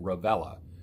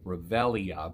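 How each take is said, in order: First: The name ends with a short 'la' syllable. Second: The name ends with an extra 'ee-uh' syllable. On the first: This is how the owner of the name says it. "he pronounces it Revella" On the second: This is how the spelling suggests it is read. "it looks like Revelia"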